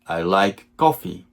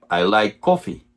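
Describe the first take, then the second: No difference in how they are said.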